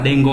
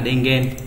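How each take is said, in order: First: The word ends with the syllable gon. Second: The word ends with the syllable gen. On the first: The speaker calls it right. "tin nhắn nó sẽ là dengo" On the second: The speaker calls it wrong. "chứ không phải là dengen"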